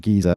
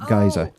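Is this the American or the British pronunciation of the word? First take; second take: British; American. First: It is said with the British pronunciation. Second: It is said with the American pronunciation. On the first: "depending on your pronunciation" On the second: "Americans pronounce it geyser"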